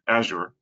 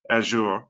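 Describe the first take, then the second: First: It is said in an American English accent. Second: It is said in a British English accent. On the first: "in U S English, it sounds like" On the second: "U K English is more like"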